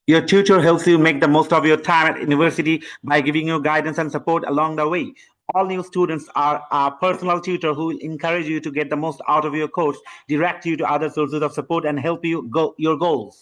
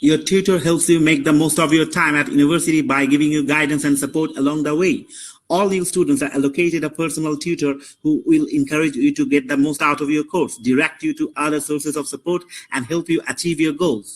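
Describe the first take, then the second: First: Skipping two words. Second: Steady, even read-aloud of the passage; read-aloud demo. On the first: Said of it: "Allocated আর achieve আমি উচ্চারণ না করে". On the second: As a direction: read straight through without pausing. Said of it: "এখানে দেখেন আপনারা শুনেন". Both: Shown as a demonstration.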